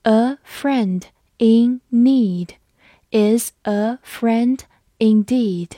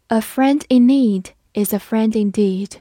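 First: Each word slow and clear; slow reading. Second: Said in the usual way. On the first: Shown as a demonstration. Teacher reading the proverb slowly for students, slow and clear. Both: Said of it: "好，我们慢读一遍。".

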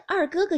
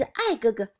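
First: Said in the usual way. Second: Mock a lisper by turning 二哥哥 into 爱哥哥; teasing mimicry, 爱哥哥 said for 二哥哥; lisping imitation. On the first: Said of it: "连个二哥哥也叫不出来". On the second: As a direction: say 爱哥哥 with "ai" in place of "er". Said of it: "偏是咬舌子".

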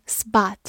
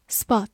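First: American English "spot" with an open "ah" vowel; "spot" in a General American accent; American pronunciation. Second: Said in the usual way. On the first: Shown as a demonstration. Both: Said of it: "美式发音可以读作".

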